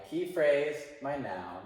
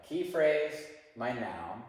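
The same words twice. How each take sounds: The two takes are said the same way.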